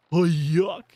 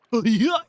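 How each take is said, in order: First: Said in the usual way. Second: "Oh, yuck" pushed higher and louder in mock disgust. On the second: Shown as a demonstration.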